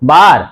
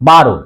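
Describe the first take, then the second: First: The word ends without a final vowel sound. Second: The word ends with an 'o' vowel sound. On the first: The speaker calls it wrong. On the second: The speaker calls it right.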